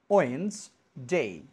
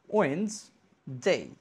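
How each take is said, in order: The two takes are said the same way.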